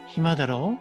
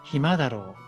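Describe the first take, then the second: First: The pitch rises at the end. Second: The pitch falls at the end. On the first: The speaker checks if their information is correct. "끝을 올려주면은" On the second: The speaker is guessing. "끝을 내려주는 상태로"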